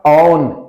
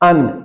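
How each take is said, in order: First: It begins with an open 'aw' vowel. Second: It begins with a plain 'uh' vowel. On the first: "it is not ऑन" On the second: "it is not अन"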